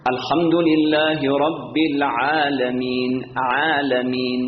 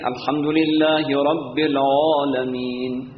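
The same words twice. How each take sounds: First: Slow chant, عالمین with a thin, open aa; light Arabic long A. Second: Slow chant, العالمین with a dark, rounded aa; wrongly heavy long A. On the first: Shown as a demonstration. Teacher showing correct recitation, light-vowelled عالمین. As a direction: draw out عالمین with a fronted, unrounded vowel. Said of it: "این استعلاست". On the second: Retold or imitated. Teacher imitating others' mistake, heavy-vowelled العالمین.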